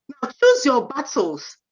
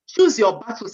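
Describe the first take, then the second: First: Firm slow warning: choose your battles; slow emphatic advice. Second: Said in the usual way. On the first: Shown as a demonstration. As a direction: choose your battles said slowly, choose stressed with a falling tune.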